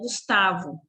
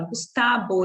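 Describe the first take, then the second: First: The name is said with a Portuguese pronunciation. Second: The name is said with a Spanish pronunciation. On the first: The speaker calls it wrong. "e não Gustavo" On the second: The speaker calls it right. "ele fala Gustavo"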